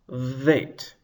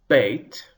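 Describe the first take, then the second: First: It begins with a soft v sound. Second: It begins with a hard b sound. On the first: The letter has no dagesh. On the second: The letter has a dagesh.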